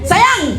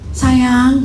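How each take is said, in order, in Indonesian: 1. Kata sayang itu dipanggil dengan nada tinggi. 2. Kata sayang itu dipanggil dengan nada rendah. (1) "Naik ke kunci G" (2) "Bilang gitu, nggak denger"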